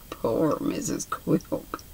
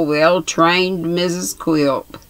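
First: Soft whispered aside, slow; pitying whisper. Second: Drawn out, relishing well-trained; slow gloat. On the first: The narrator pitying Quilp's wife, hushed whisper. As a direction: breathe it with pity. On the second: Quilp relishing his wife's fear, slow sneer. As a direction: savour every word of it. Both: A narrator's reading.

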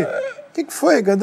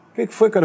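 First: Slow, much higher puzzled ask; high drawn-out question. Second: Said in the usual way. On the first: Retold or imitated. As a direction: stretch it out high and bewildered. Careca asks what happened.

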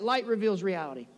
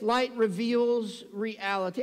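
First: Said in the usual way. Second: "Light reveals reality" drawn out word by word; slow emphatic statement. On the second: Real, not acted. Preacher unveiling his last point, "Light reveals reality", slow and deliberate. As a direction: stretch "reality" slowly for emphasis.

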